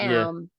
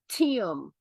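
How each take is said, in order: First: The vowel sounds like the e of 'Tem'. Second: The vowel is the short i of 'Tim'. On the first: This is how the other people say it. "They pronounce it Tam, like like T E M" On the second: This is the speaker's own way of saying it. "I pronounce it Tim"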